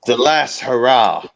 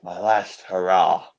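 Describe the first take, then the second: First: Loud, grand declaration; loud proclamation. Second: Slow, drawn out, solemn. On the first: Proud man announcing his last hurrah, loud. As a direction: announce it boldly. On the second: Proud man savouring his last hurrah, slow and solemn. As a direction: let each word sink in slowly. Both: Acted.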